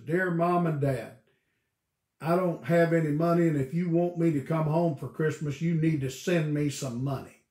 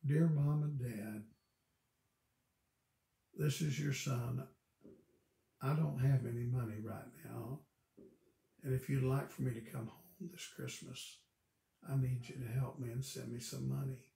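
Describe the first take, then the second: First: Loud, blunt and pushy; a son bluntly demanding money, read out loud; rude demanding letter. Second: Softer, gentle and respectful; a son politely asking his parents for help; polite humble letter. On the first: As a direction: read it like a curt demand for cash. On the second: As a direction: read it like a humble, kind request. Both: Retold or imitated. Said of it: "a lot of meaning in how things are said".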